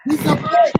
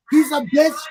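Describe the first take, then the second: First: Much higher, loud shriek; a high-pitched furious repeat of the insult. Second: Loud, furious shout; a loud angry outburst. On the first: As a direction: shriek it the second time, far higher. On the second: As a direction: yell the insult in real anger. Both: Real, not acted. Angry rant about wigs.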